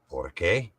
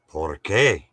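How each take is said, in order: First: It is said with a questioning inflection. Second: It is said with a statement inflection. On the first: It asks for a reason. "Means why" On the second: It gives a reason. "Means because"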